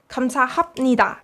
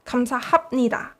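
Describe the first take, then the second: No difference in how they are said.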